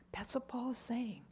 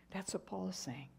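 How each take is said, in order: First: Whispered that's what Paul is saying, voiceless; awed whisper. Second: Said in the usual way. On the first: Real, not acted. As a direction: hush it in wonder.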